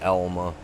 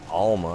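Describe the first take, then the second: First: The name begins with an 'el' sound. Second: The name begins with an 'al' sound. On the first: The speaker calls it right. "A L makes an L sound" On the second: The speaker calls it wrong. "it's not Alma"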